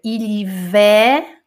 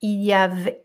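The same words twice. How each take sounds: First: "Ilivé" said slowly, syllable by syllable; correct French form. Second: "Ilhavé" read as the student wrote it; misspelt form read out. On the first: Teacher giving students the correct pronunciation, slowly. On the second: Teacher reading the student's spelling aloud, plain. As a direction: say "Ilhavé" the written way. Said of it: "escrevi Ilhavé". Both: Shown as a demonstration.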